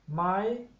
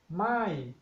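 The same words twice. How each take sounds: First: The pitch is held high throughout. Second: The pitch starts high and falls. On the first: It is a yes-no question particle. "the high tone my" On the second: It means no. "the falling tone my"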